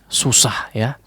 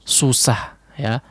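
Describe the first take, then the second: Both takes have the same delivery.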